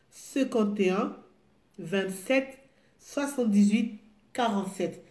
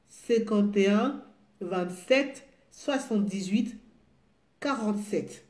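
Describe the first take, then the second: No difference in how they are said.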